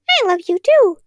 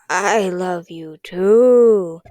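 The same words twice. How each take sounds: First: It is said in a light, chirpy voice. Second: It is said in a dry, raspy voice.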